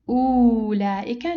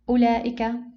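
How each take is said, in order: First: The waw letter is pronounced aloud. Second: The waw letter is not pronounced. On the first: The speaker calls it wrong. "We don't say" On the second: The speaker calls it right. "so we ignore the wow"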